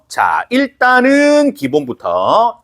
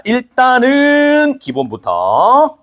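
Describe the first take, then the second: First: 일단은 lifted and slowed again; stress on 일단은. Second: 일단은 drawn out high and slow, rising; stress on 일단은. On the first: Teacher repeating the opener, 일단은 again high and slow. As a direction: hit 일단은 a second time. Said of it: "repeat with stress". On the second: Teacher starting the lesson, 일단은 stretched high and slow. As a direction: lean on 일단은 slowly. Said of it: "teacher stresses basics". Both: Shown as a demonstration.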